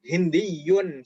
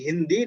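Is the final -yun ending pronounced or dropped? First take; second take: pronounced; dropped. First: The word ends with a doubled y and -un. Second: The word ends plainly on a long i. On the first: This is the full original reading. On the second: This is the everyday reading without the ending. "Seperti Hindi di sini"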